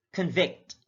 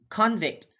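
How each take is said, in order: First: ConVICT, weak first syllable; careful demo of conVICT; stress on second syllable. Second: CONvict, high full CON; careful demo of CONvict; stress on first syllable. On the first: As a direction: say "convict" as kun-VICT. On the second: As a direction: say "convict" as KAHN-vict. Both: Shown as a demonstration. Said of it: "stress is the verbal emphasis used".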